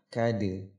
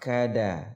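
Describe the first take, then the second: First: The final d bounces with a light 'e' echo. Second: The final d is followed by a full 'a' vowel. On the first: "Kalau qalqalah kade" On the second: "Kalau fathah kada"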